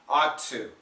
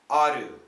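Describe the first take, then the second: First: The two T sounds merge into one T. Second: The T becomes a quick D-like flap. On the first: "we can connect the sounds and keep the second sound" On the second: "Now I've changed it to a flap T"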